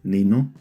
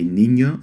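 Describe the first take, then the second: First: The middle consonant is a plain n. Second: The middle consonant is a ny sound. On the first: The speaker calls it wrong. "you end up saying nino" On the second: The speaker calls it right. "how to say niño"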